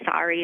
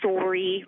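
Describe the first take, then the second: First: The vowel is said with an American accent. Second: The vowel is said with a Canadian accent. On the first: "like you do in the States" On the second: "Canadians say sorry"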